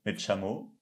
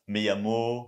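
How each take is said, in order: First: The ll sounds like a sh sound. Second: The ll sounds like a y sound. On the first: This is how speakers in that region say it. "ils vont dire me chamo" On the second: This is the basic, common way to say it. "la base"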